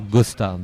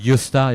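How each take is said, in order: First: The vowel is pronounced the plain French way. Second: The vowel is pronounced the Swedish way. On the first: The speaker calls it wrong. "et pas Gosta" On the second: The speaker calls it right. "Je prononce à la suédoise ... on dit Gösta"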